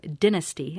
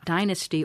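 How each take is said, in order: First: The word is said the British way. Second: The word is said the American way.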